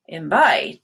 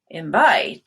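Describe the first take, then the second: First: The stress is on the second syllable. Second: The same.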